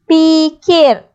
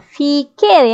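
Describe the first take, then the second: First: The word begins with a p sound. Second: The word begins with an f sound. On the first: The speaker calls it wrong. "Pikir ke fikir?" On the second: The speaker calls it right. "Yang betulnya fikir kan?"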